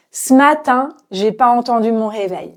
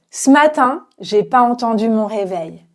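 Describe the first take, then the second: No difference in how they are said.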